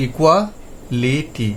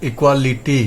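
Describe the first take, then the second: First: ইকুয়ালিটি spelt out very slowly, syllable split before the vowel; ইকুয়ালিটি drawn out slowly and clearly for the class; slow syllable-by-syllable demo. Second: Said in the usual way. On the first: Shown as a demonstration. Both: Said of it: "একটা ভয়েলের আগে থেকে উচ্চারণটা করব".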